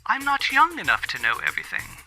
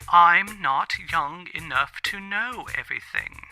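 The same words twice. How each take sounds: First: It is said at normal speed. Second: It is said more slowly.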